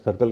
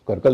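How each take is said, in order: First: The word begins with an S sound. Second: The word begins with a K sound. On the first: The speaker calls it right. "सर्कल कहते हैं" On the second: The speaker calls it wrong. "सर्कल नहीं कहते"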